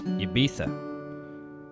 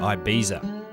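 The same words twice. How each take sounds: First: It is said with a Spanish pronunciation. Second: It is said with an English pronunciation. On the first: This is how Spanish speakers say it. "The Spanish pronunciation is Ibiza" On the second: This is how English speakers say it. "English speakers tend to say Ibiza"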